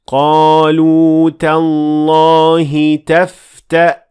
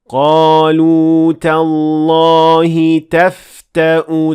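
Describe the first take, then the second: First: The word ends on a bare hamza, no vowel. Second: The final hamza is followed by a u vowel. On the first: The reader pauses at this word. "you will only pronounce hamza with sukoon" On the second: The reader continues without pausing. "dhamma with the hamza"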